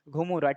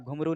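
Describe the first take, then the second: First: The word ends in an 'a' sound. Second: The word ends in an 'oo' sound. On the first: The speaker calls it right. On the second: The speaker calls it wrong.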